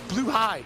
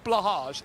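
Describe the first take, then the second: First: The name ends with a 'high' sound. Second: The name ends with a soft 'hahzh' sound. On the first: The speaker calls it right. "It's Blue High, I believe" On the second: The speaker calls it wrong. "it's not Blahage. That's the trick. ... if you say that, you messed it up"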